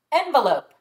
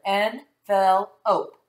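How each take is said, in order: First: Said in the usual way. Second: Slowly stretched "Envelope" split into parts; teacher blends syllables slowly with the class. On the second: Shown as a demonstration. Slow sounded-out "Envelope". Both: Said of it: "put those three syllables together".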